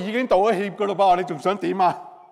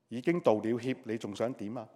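First: The tone is impatient and irritated. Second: The tone is calm and even. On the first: The speaker just wants the matter over with. The speaker calls it wrong. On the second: The speaker sincerely regrets it. The speaker calls it right.

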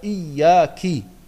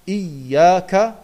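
First: The word ends with the syllable ki. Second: The word ends with the syllable ka. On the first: The speaker calls it wrong. "sagt er Iyaki" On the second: The speaker calls it right. "anstatt Iyaka"

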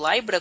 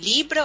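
First: The name is said the way the anime pronounces it. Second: The name is said with an ordinary Portuguese pronunciation.

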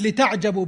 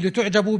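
First: The first syllable has the vowel a. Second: The first syllable has the vowel u. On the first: It means being amazed at the matters taught. The speaker calls it wrong. "إذا كانت لتعجبوا بالفتح فيمكن أن يحمل على إرادة أن تتعجبوا من المسائل" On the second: It means being admiring of oneself. The speaker calls it right. "لكن لو قلت لتعجبوا أي لتعجبوا بأنفسكم ممكن يكون هذا أليق بالسياق"

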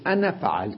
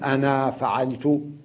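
First: The final vowel of the first word is short. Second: The final vowel of the first word is long. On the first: The speaker calls it right. "إذن كلمة أنا نكتبها مع أنها في درج الكلام تحذف، تقول" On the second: The speaker calls it wrong. "لا أقول"

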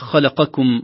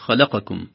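First: The letter before the suffix is pushed strongly. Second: The letter before the suffix is not pushed. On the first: The speaker calls it right. "آخر حرف في الكلمة قبل الضمير هو يكون متكئ عليه" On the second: The speaker calls it wrong. "وليست"

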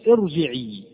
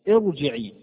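No difference in how they are said.

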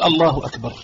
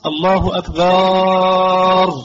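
First: The vowel after the b is short. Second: The vowel after the b is drawn out long. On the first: God is the greatest. The speaker calls it right. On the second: It becomes a different word meaning a drum. The speaker calls it wrong.

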